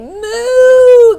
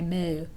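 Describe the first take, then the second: First: It is said with lots of energy. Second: It is said flatly, with little energy.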